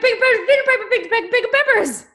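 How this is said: It sounds delighted, like at a surprise party.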